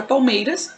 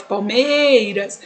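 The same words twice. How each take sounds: First: Said in the usual way. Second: Palmeiras with "mei" greatly drawn out; slow "Palmeiras", leaning long on "mei"; stress on MEI. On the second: Shown as a demonstration. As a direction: stretch the stressed middle of "Palmeiras": pal-MEEEI-ras. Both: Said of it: "qual que é a sílaba mais forte".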